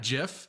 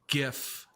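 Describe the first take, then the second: First: The word starts with a soft G sound. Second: The word starts with a hard G sound. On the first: The speaker calls it wrong. "not GIF" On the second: The speaker calls it right. "it is in fact GIF ... the G stands for graphics"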